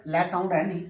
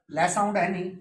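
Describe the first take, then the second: No difference in how they are said.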